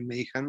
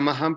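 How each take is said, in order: First: The first vowel is an 'ay' sound. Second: The first vowel is a plain 'ah' sound. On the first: This is how the other person says the name. The speaker calls it right. "si tú dices que es Mayhan, pues yo a partir de ahora lo diré Mayhan" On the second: This is how the speaker used to say the name. The speaker calls it wrong. "yo decía Mahan"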